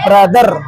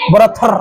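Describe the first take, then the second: First: The middle consonant is a soft d sound. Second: The middle consonant is an aspirated t sound. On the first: The speaker calls it right. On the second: The speaker calls it wrong.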